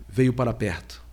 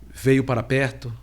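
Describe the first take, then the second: No difference in how they are said.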